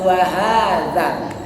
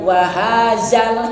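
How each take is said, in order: First: The middle consonant is a soft dh sound. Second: The middle consonant sounds like a hard z. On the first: The speaker calls it right. "tapi wahadzal" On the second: The speaker calls it wrong. "jadi bukan wahazal"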